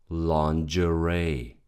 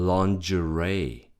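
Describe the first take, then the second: Both takes have the same delivery.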